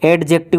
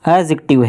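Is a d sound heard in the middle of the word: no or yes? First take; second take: yes; no. First: The d sound in the middle is pronounced. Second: The d sound in the middle is silent. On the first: The speaker calls it wrong. "एडजेक्टिव नहीं" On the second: The speaker calls it right. "D silent रहता है"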